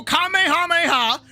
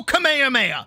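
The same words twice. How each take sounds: First: Kamehameha with every syllable fully sounded, held high; first pronunciation. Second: Kamehameha run together, falling at the end; second pronunciation. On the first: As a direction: say Kamehameha as the in-game character does. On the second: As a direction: say Kamehameha the alternative, more slurred way. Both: Shown as a demonstration. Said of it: "there's two pronunciations".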